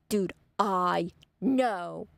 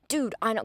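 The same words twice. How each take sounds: First: "Dude, I know" with each word slowly drawn out; slow, weighty "Dude, I know"; emphatic agreement. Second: Said in the usual way. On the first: Retold or imitated. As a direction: stretch "I" and "know" very long. Repeats the reply with heavy emphasis.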